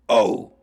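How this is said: It is a guttural scream with vocal cords.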